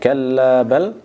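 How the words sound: A full stop with a breath follows bal. "mewakafkan pada kata bal ... kemudian tarik nafas"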